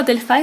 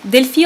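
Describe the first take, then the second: First: Delphi said as DEL-fye; DEL-fye pronunciation. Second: Delphi said as DEL-fee; DEL-fee pronunciation. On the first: Asking how English says it, Delphi as DEL-fye. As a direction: end Delphi on a "fye" sound. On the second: Asking how English says it, Delphi as DEL-fee. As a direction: end Delphi on a "fee" sound. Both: Shown as a demonstration. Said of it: "How do you say in English?".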